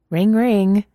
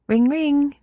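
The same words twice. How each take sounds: First: Ringing like a phone; mock phone ring. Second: Much higher, eager sing-song ring; excited girl mimicking a phone ring; Mina fake ringing. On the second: A narrator's reading. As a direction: bounce the ring like a giddy girl. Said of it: "Mina said".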